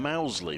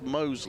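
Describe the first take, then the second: First: The first vowel sounds like 'ow'. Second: The first vowel sounds like 'oh'. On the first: This is the version most people use. The speaker calls it wrong. "Everyone seems to want to call him Mousley" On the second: This is the version the player himself uses. The speaker calls it right. "he has told us it's Mosley"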